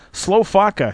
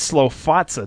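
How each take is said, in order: First: The consonant before the final vowel is a 'k'. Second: The consonant before the final vowel is 'ts'. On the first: The speaker calls it wrong. "how's Van Silly... pronouncing it?" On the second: The speaker calls it right. "Well, it's Slow Fatsa"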